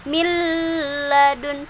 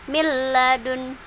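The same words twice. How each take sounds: First: The merged sound carries a nasal hum. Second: The merged sound has no nasal hum. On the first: The speaker calls it wrong. "bukan milladun" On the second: The speaker calls it right. "tapi milladun"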